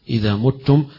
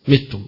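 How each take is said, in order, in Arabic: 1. الحركة الأولى ضمة. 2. الحركة الأولى كسرة. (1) "قراءة الجمهور" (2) "بالكسر"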